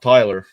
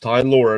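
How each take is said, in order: First: The second syllable sounds like 'ler'. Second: The second syllable sounds like 'lore'. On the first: The speaker calls it wrong. "It's not Tyler" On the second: The speaker calls it right. "It's Ty Lor"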